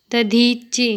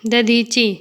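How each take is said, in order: First: Long middle ee in "दधीचि"; correct pronunciation. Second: Short middle i in "दधीचि", like "दधिचि"; incorrect pronunciation. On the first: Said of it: "शुद्ध शब्द". ("दधीचि" का शुद्ध उच्चारण, बीच में लंबी ई) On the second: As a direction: say "दधीचि" wrongly with a brief middle vowel. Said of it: "अशुद्ध शब्द". ("दधीचि" का अशुद्ध उच्चारण, बीच में छोटी इ) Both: Shown as a demonstration.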